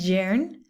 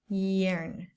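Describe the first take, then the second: First: The word begins with a firm consonant sound. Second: The word begins with a soft vowel-like sound. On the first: The speaker calls it wrong. "Not yearn" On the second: The speaker calls it right. "So it's almost like another vowel"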